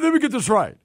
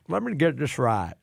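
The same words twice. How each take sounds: First: It is said in a plain voice. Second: It is said in a redneck accent.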